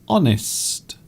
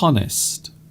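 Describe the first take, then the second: First: The word begins with a silent H. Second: The word begins with an audible H sound. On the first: The speaker calls it right. "the letter H at the beginning is not really pronounced" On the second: The speaker calls it wrong. "You don't you don't say honest"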